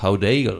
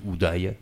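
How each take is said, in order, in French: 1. Le nom est prononcé d'une façon non française. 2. Le nom est prononcé à la française. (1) "peut-être qu'il prononce" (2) "à la française"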